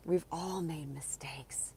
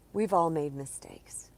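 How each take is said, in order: First: Whispered repeat; gentle whispered echo. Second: Said in the usual way. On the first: Shown as a demonstration. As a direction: whisper it softly. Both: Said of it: "repeated as whisper".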